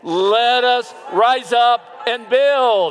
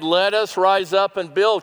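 First: It is said loudly, in an outdoor voice. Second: It is said at a normal, quieter volume.

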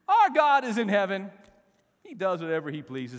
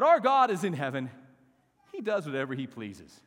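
First: It is said with bold, defiant attitude. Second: It is read in a plain, neutral way.

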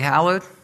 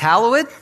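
First: The word is said in a plain, everyday way. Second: The word is said in an old, formal way. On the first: It is the ordinary way the word is said. "It's really hallowed" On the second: It suits a traditional, King James style of speech. "If I feel like I'm in sort of a King James state of mind, I guess it's hallowed"

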